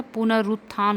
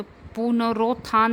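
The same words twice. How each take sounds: First: पुनरुत्थान with a short 'u' after r; correct pronunciation. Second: पुनरोत्थान with an 'o' after r; wrong pronunciation. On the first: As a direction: say पुनरुत्थान as punar-ut-thaan. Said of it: "होता है". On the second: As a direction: say पुनरोत्थान as punar-ot-thaan. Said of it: "नहीं होता". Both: Shown as a demonstration.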